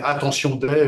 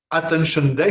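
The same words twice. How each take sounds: First: Attention Day said the French way, a-tan-see-on day; French reading. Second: Attention Day said the English way, atten-shun day; English accent. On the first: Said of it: "sinon ça fait Attention Day". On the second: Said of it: "il faut le dire avec l'accent, anglais". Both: Shown as a demonstration.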